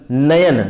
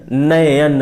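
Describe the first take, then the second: First: Said in the usual way. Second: नयन stretched to bring out the अय; sound breakdown. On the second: Shown as a demonstration. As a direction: draw out नयन as na-ye-yan so अय is heard. (नयन को तोड़कर, अय की ध्वनि खींचते हुए) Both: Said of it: "अय देखिए निकल रहा है".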